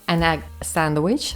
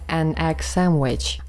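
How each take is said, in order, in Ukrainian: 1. Звук d у слові sandwich чітко вимовляється. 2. Звук d пропускається, а n звучить як m. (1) "наша така перша фраза" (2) "стане"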